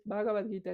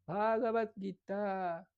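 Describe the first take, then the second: First: Said in the usual way. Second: Bhagavad Gita slow, with a long final "taa"; lengthened Sanskrit vowels. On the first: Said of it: "no es Bhagavad Gita". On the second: Shown as a demonstration. Teacher correcting the short form, Bhagavad Gita drawn out. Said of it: "se alargan algunas palabras".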